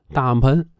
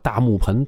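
First: The middle syllable is swallowed. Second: The middle syllable is clearly pronounced. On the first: The speaker calls it right. "天津人吞音" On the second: The speaker calls it wrong. "正经的天津人说话哪有说大木盆"

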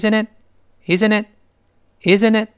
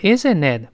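First: The pitch rises slightly at the end. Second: The pitch falls at the end. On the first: It invites the other person to answer. The speaker calls it right. "所以一定声音往上略扬，注意这声音，他这么说" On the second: It sounds like a statement that needs no reply. The speaker calls it wrong. "这个不要懂的isn't it 不是是不是啊，不是这个语气"

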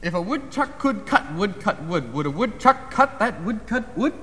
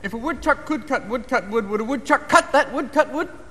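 First: It is said at a slow pace. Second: It is said at a fast pace.

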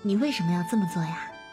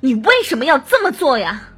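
First: It sounds warm, relaxed and smiling. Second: It sounds tense, forceful and full of hatred.

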